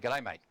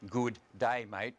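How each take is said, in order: First: The words are squashed together into one. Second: Each word is said fully and separately. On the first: "we'll say one" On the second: "Instead of saying three words"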